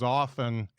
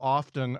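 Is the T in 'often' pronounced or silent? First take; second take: silent; pronounced. First: The T in the middle is silent. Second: The T in the middle is pronounced. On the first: The speaker sounds less sophisticated. "In my house, it's often with no T" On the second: The speaker sounds more sophisticated. "they started pronouncing the T in often"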